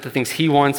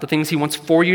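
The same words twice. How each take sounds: First: "he" made the prominent word; stress on HE. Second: Higher pitch, leaning on "for you"; stress on FOR YOU. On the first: Preacher turning focus to God, stress on "he". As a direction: land on "he" as the correction. Corrects to what God wants. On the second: Preacher rejecting self-centred wants, stress on "for you". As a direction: punch "for you" as the idea to reject. Contrasts two meanings of wanting. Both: Real, not acted.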